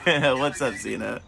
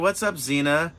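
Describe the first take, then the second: First: It is said in a natural, everyday voice. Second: It is said in a put-on character voice.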